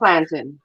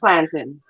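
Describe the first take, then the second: First: It is said the way Caribbean people say it. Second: It is said the way Caribbean people say it.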